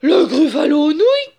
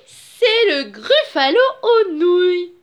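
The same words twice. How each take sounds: First: Loud, high-pitched horrified shout; gasp, then cry it out in alarm. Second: Menacing announcement. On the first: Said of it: "cria Gruffalo". (cri aigu et horrifié) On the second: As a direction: stretch the dish's name for effect. Mouse slyly announces its favourite dish. (annonce forte et traînante) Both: A narrator's reading.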